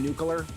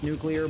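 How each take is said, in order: First: The word is said in a nonstandard way. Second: The word is said in the standard way.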